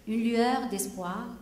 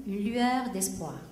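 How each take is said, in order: Both takes have the same delivery.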